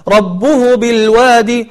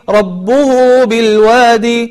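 No difference in how they are said.

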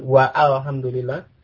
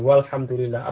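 First: The vowel of 'al' is pronounced after wa. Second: The vowel of 'al' is dropped after wa. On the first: The speaker calls it wrong. "Apa ada orang mengatakan" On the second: The speaker calls it right. "Alifnya tidak diucapkan. Jadi langsung ke kelamnya"

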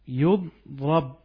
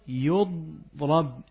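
First: The first vowel is u, the second is a. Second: The first vowel is u, the second is a.

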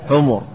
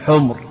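First: It is said with two short u vowels. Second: It is said with a single short u vowel. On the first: It is the plural of a four-letter noun like himar. The speaker calls it right. "إذن يجمع على ماذا؟ على حمر" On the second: It is the plural of the colour adjective for red. The speaker calls it wrong. "ولا تقل حمر، لأن حمر هناك سبق فعل جمع لأحمر وحمراء"

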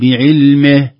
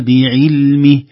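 First: The i vowel is tilted toward e. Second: The i vowel is full and clear. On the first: The speaker calls it wrong. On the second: The speaker calls it right.

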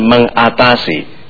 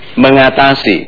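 First: The word is said slowly, part by part. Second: The word is said at ordinary speed.

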